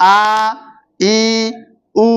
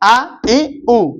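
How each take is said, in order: First: The vowels are drawn out and long. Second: The vowels are short and said quickly. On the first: "এটা মদের হরকত ... টেনে টেনে পড়া, দীর্ঘায়িত করে পড়া" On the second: "এটা হরকত ... কোনো টান হয় নাই, হরকতের উচ্চারণ তাড়াতাড়ি হচ্ছে"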